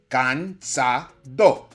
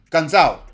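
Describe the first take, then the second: First: The D sound is pronounced fully. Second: The D sound is softened or dropped. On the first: This is how the word is expected to sound. "You expect cansado" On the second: This is how some speakers say it in real life. "some speakers say something closer to cansado"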